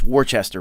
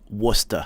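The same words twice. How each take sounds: First: It is said as spelled, all syllables sounded. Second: It is said in a short, clipped local form. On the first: This is how an outsider would guess it. The speaker calls it wrong. "you would think it's Worcester" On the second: This is how people there actually say it. The speaker calls it right. "they pronounce it Worcester"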